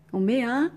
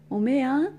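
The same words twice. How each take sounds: The two takes are said the same way.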